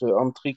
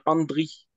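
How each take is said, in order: First: The middle consonant sounds like a T. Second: The middle consonant sounds like a D. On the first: The speaker calls it wrong. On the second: The speaker calls it right.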